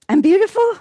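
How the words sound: The voice rises at the end, like a question.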